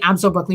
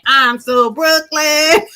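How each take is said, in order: First: It is said plainly, without a put-on accent. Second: It is said with a Brooklyn-style accent.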